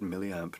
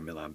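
First: The word is said carefully with every syllable. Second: The word is said loosely with sounds reduced. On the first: "I said milliamp. Now everybody will expect me to say it correctly" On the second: "It's the lazy way to say it"

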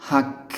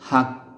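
Both takes have the same delivery.

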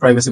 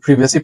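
First: The first vowel is an 'eye' sound. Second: The first vowel is a short i sound. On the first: "American অ্যাকসেন্টে আপনি চাইলে প্রাইভেসি বলতে পারেন" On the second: "British অ্যাকসেন্টে এটাকে বলা হয় প্রিভেসি"

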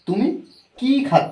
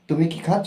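First: The word ki is stressed and lengthened. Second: The word ki is short and unstressed. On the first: It asks what is being eaten. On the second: It asks a yes-or-no question about eating.

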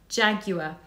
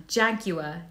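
Both takes have the same delivery.

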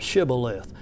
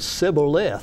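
First: The word begins with an 'sh' sound. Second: The word begins with a plain 's' sound. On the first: The speaker calls it right. "putting that H in there" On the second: The speaker calls it wrong. "he could not say properly, he said Sibboleth"

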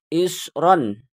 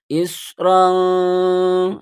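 First: The final n is clear, without a nasal hum. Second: The final n is hidden with a nasal hum. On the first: The speaker calls it wrong. "bukan isron. Jangan seperti itu" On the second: The speaker calls it right. "samar disertai dengan dengung"

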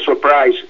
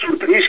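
First: The second syllable has an 'eye' vowel. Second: The second syllable has an 'ee' vowel.

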